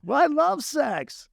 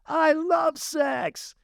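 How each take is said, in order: First: Slowly drawn-out, higher stage line of I love sex; milk it on stage, slow and high; imitating his own slow stage delivery; slow high mock line. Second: Slow, high, drawn-out yell of I love sex; slow high mock shout from the crowd; fan shouting. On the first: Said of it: "And I said". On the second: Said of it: "David Pierce goes".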